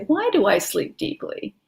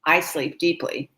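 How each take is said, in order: First: Bright question. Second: Said in the usual way. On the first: Shown as a demonstration. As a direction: question lifted higher. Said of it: "So you wanna say". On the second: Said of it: "If you just said".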